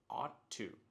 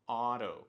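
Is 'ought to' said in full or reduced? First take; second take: full; reduced. First: Both words are said fully with a clear t. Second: The words blend into one reduced word, oughta. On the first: This is the form Americans do not use. "you will never hear saying ought to" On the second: This is the form Americans actually use. "They always say oughta"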